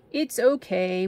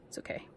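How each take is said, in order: First: Said in the usual way. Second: Whispered to herself, soothing. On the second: Real, not acted. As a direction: breathe it out under your breath. Tore letters, reassures herself.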